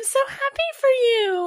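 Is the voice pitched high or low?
high. It is said in a higher-pitched voice.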